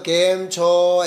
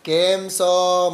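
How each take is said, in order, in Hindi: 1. इसमें मानक गुजराती लहजा है, 'ch' के साथ। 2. इसमें केरल का लहजा है, 'ch' की जगह 's' के साथ।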